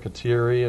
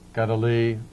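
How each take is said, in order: First: The name is said with English sounds. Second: The name is said with Mohawk sounds. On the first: The speaker calls it wrong. "her name is pronounced Kateri or Kateri in New York State" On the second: The speaker calls it right. "the correct pronunciation in Mohawk"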